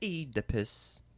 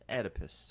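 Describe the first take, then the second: First: It is said in a British accent. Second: It is said in an American accent.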